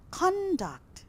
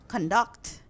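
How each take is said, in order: First: The stress is on the first syllable. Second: The stress is on the second syllable.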